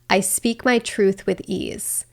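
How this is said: It is said from the head, detached.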